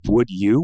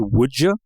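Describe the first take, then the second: First: The words are kept separate without a J sound. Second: The words blend together with a J sound. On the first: The speaker calls it right. "instead of would you" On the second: The speaker calls it wrong. "the J sound"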